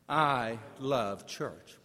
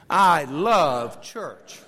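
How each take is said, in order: First: It is said at a moderate, ordinary volume. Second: It is said loudly with strong force. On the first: "Will you say that with me?" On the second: "Now say it loudly"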